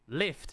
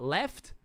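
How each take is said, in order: First: The vowel is raised, sounding like 'lift'. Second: The vowel is an open 'e' sound. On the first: "Kiwis pronounce the vowels funny. They say lift" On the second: "not left"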